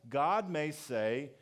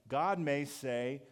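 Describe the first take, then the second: The two takes are said the same way.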